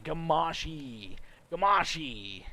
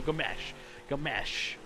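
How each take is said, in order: First: "Gamashi" ending in a drawn-out ee; long final E. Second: "Gamesh" ending on sh, second vowel as in mesh; E not pronounced. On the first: Announcer working out a driver's name, "Gamashi" with long final ee. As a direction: say "Gamashi" slowly, sounding the last E. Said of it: "the E is like a long abbreviated E". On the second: Announcer settling on the corrected name, "Gamesh" with a silent E. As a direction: say "Gamesh" lower, with no final ee. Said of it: "You don't pronounce the E". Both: Shown as a demonstration.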